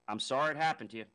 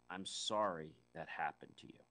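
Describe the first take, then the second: First: It sounds uncaring and dismissive. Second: It sounds caring and sincere.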